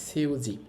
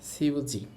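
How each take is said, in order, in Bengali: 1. শব্দটি s ধ্বনি দিয়ে শুরু হয়। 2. শব্দটি s ধ্বনি দিয়ে শুরু হয়।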